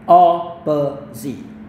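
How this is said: American accent, with a long o first vowel. "O yang agak panjang"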